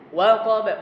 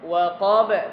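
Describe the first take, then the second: First: The stress is on the first syllable. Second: The stress is on the last syllable. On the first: The speaker calls it right. "karena huruf pertamanya waw" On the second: The speaker calls it wrong. "jangan ditekan di qaf"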